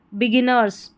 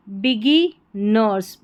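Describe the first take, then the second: First: Said in the usual way. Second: बिगी nurse split slowly in two pieces; broken into syllables. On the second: Shown as a demonstration. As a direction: pause between बिगी and nurse. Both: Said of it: "तोड़ के pronounce करना".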